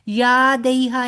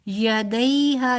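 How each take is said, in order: First: The middle vowels are split into two sounds. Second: The middle vowel glides softly as one sound. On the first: The speaker calls it wrong. "नहीं कहना" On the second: The speaker calls it right. "यालीन तो नरमी से पढ़ेंगे"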